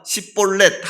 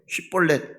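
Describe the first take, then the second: First: The word starts with an s sound. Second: The word starts with an sh sound. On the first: The speaker calls it wrong. "그 발음을 못합니다. 십볼렛 하니까" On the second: The speaker calls it right. "쉬볼렛 이야기해봐"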